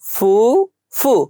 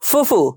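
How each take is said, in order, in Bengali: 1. দুটি অক্ষর ধীরে এবং আলাদাভাবে উচ্চারণ করা হয়। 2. দুটি অক্ষর দ্রুত এবং জুড়ে উচ্চারণ করা হয়।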